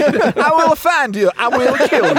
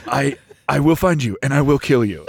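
First: Higher, back in the movie-hero voice; hammed-up action-hero threat; Liam Neeson voice. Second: Low, fast, flat threat; menacing; deadpan threat. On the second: Retold or imitated. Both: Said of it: "you can't change his accent now".

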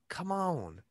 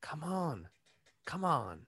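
First: Slow drawled "come on"; a Southern-leaning stab at Biden; too Southern take. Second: Biden impression attempt. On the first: Acted. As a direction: overdo the Southern stretch on "come on". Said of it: "That was too Southern". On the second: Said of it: "That's better".

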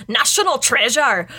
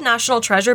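First: "Treasure" in a badly faked Scottish accent; hammed-up bad Scots vowels on "National Treasure"; terrible Scottish accent. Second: Said in the usual way. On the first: Shown as a demonstration. Host pitches film title to co-host in terrible Scottish accent. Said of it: "the worst accent I've ever done". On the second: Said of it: "it's actually pronounced like".

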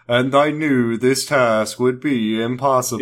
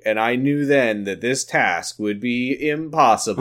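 First: Slow put-on narrator impression; Kyle. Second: Mock vlog narration voice; Elton. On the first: Co-host teasing the host's narration, slow imitated voice. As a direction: drag it out in a mock narration voice. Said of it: "Kyle voice". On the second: Host imitating a vlog narration for co-host, mock narrator. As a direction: narrate it like a self-serious vlogger. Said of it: "where Elton is narrating".

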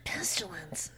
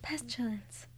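First: Soft whispered name. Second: Breathy whispered name. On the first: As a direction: breathe the name out. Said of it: "and then you say". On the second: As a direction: whisper it hoarsely. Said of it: "That's how Sarah sounds?". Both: Retold or imitated.

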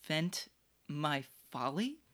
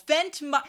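First: Quiet scoffing repeat of "Vent my folly"; quietly mock the word "Vent"; mocking echo. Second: "Vent" blurted higher and louder in scorn; loud mocking echo. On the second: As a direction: throw "Vent" back loudly. He has heard that word of some great man.

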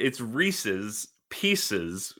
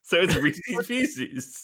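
First: "Reese's Pieces" slowly, Reese's rhyming with Pieces, REE-sis PEE-sis; correct pronunciation. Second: "Reese's Pieces" slow, REE-sis like PEE-sis; rhyming pronunciation. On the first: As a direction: say "Reese's" to rhyme with "Pieces", slow and deliberate. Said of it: "that's the wrong way to say it". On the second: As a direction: draw out "Reese's Pieces" so they rhyme. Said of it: "you rhyme Reese's with pieces". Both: Shown as a demonstration.

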